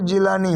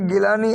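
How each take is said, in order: First: The name begins with a J sound. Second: The name begins with a hard G sound. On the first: This is the form used in Arabic. "अरबी में गाफ नहीं है, उसकी जगह वो जीम pronounce करते हैं" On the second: This is the form used in Iran. "गिलान शहर है ईरान में"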